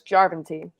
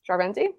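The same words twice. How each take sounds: First: The stress falls on the first syllable. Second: The stress falls on a later syllable. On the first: The speaker calls it right. "Emphasis on the first syllable in the in Finnish" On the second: The speaker calls it wrong.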